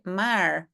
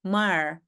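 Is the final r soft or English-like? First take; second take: English-like; English-like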